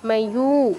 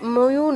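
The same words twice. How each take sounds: First: The final u vowel is long. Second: The final u vowel is short. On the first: The speaker calls it right. "ইউতে দীর্ঘ করতে হবে" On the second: The speaker calls it wrong. "ময়ূ নয়"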